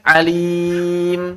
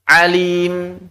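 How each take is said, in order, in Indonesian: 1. Vokalnya ditahan selama empat ketukan. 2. Vokalnya ditahan selama dua ketukan.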